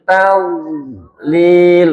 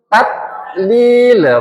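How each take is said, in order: First: The consonants are articulated soft and gentle. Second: The consonants are articulated hard and stiff. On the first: The speaker calls it right. "menjadi lunak" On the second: The speaker calls it wrong. "menjadi bundu syiddah"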